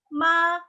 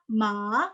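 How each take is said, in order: First: "ma" held high and level; steady, unmoving "ma"; first-tone MA. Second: "ma" with a rising end; second-tone MA. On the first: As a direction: sustain "ma" on one even high note. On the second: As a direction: lift "ma" upward like a question. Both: Shown as a demonstration. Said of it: "Itu beda semua artinya".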